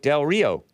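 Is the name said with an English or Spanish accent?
English. It is said with an English pronunciation.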